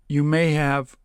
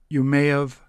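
The two takes are said the same way.

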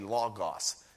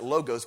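First: The first vowel is an 'ah' sound. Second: The first vowel is not an 'ah' sound. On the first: The speaker calls it right. "but it's actually logos. The O is ah" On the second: The speaker calls it wrong. "Some people pronounce it logos"

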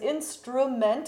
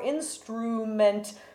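First: The second syllable has an open U vowel. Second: The second syllable has a closed U vowel. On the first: "we also have an open U in the word instruments" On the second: "whether it should be a closed U"

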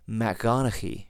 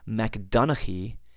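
First: A voiced guttural G sound follows Mac. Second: A plain D sound follows Mac. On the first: The speaker calls it right. "when you truly make it a genitive form, it's going to sound more like MacGonnchaidh" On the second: The speaker calls it wrong. "rather than saying MacDonnchaidh"

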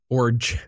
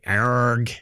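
First: The name is said in its usual way. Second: The name sounds like a pirate's 'arg'. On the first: "I think is how you say it" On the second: "I like to say Arg, like I'm a pirate"

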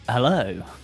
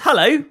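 First: It is said in a put-on radio voice. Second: It is said in his natural voice.

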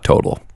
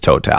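First: The name is said the English way. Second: The name is said the French way. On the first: The speaker calls it wrong. "It's not Total" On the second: The speaker calls it right. "It's Total. Because we are French"

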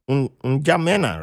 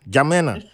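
First: The initial N sound is pronounced. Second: The initial N sound is silent. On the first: The speaker calls it wrong. "You said it right, but the N is silent" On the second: The speaker calls it right. "the N is silent"

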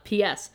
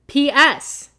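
First: It is said more quietly. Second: It is said very loudly.

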